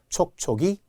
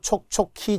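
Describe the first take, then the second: First: The last syllable starts with a plain g-like sound. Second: The last syllable starts with an aspirated k-like sound. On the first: The speaker calls it right. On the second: The speaker calls it wrong.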